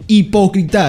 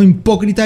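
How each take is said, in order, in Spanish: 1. La palabra empieza con un sonido 'ee' simple. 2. La palabra empieza con un sonido 'eem'. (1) "no es tan fucking difícil. Hipócrita" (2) "no impócrita"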